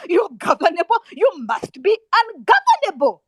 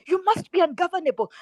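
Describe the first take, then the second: First: Loud, high, forceful exhortation; real rallying outburst, raised high; impassioned demand. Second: Said in the usual way. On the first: Real, not acted. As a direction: cry it out as an angry command. Angry exhortation to students.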